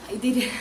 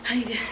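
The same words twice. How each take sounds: The two takes are said the same way.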